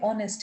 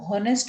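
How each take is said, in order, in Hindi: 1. शब्द की शुरुआत स्वर से होती है, 'h' की आवाज़ नहीं है। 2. शब्द की शुरुआत एक साफ़ सुनाई देने वाली 'h' की आवाज़ से होती है। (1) "लेकिन पढ़ते ऑनेस्ट हैं" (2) "अगर हम उसको हॉनेस्ट बोल रहे हैं ... तो देन इट बिकम्स रॉन्ग"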